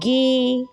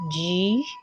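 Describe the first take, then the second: First: The letter name is said the Igbo way. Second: The letter name is said the English way. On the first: "but in Igbo it is called G" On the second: "In English it is called G"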